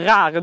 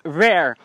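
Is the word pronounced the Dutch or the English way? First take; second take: Dutch; English. First: The word is pronounced the Dutch way. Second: The word is pronounced the English way.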